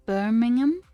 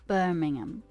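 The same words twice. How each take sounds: First: "Birmingham" higher and louder, climbing to the end; questioning try-out. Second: "Birmingham" with the pitch falling away through the word; settled try-out. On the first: Streamer testing a British place name, "Birmingham" as a rising question. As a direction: ask "Birmingham" with a strong final rise. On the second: Streamer settling a British place name, "Birmingham" falling like a statement. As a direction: state "Birmingham" on a downward tune. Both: Shown as a demonstration.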